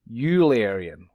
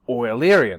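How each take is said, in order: First: The first syllable does not sound like oil. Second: The first syllable sounds like the word oil. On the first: The speaker calls it wrong. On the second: The speaker calls it right. "like the stuff you put in your car"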